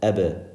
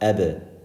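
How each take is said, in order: First: The final b is released with a small bounce. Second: The same.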